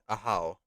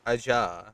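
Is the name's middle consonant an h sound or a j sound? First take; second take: h sound; j sound. First: The middle consonant is an h sound. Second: The middle consonant is a j sound. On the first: It follows the name's original language. The speaker calls it right. "correctly speaking for the language, it is a how" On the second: It is read straight from the spelling. The speaker calls it wrong. "the pronunciation from spelling would be Aja"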